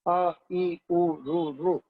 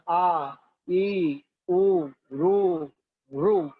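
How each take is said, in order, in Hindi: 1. हर स्वर जल्दी और छोटा बोला जाता है। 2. हर स्वर खींचकर और लंबा बोला जाता है। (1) "ह्रस्व जो होता है वो जल्दी से बोला जाता है" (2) "दीर्घ जो होता है उसको लंबा करके बोला जाता है"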